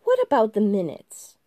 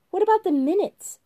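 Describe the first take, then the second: First: January, insistent. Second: Much higher, louder, petulant question; January, shrill and fussy. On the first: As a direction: hammer the point home again. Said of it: "repeated January". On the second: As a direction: whine it like a stickler. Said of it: "asked January". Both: Acted.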